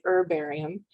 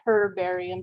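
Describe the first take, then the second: First: The word begins with a vowel, no h. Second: The word begins with an audible h sound. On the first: This is the usual American way. "the Americans drop the H oftentimes" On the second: This is the usual British way. "the Brits typically say herbarium"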